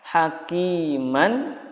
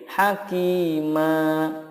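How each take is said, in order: First: The word ends with a short vowel and n. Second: The word ends with a lengthened a vowel. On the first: The word is read without stopping on it. "Contohnya hakiman" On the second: The reader stops on this word. "ma-nya dibaca panjang"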